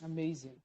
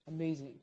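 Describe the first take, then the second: No difference in how they are said.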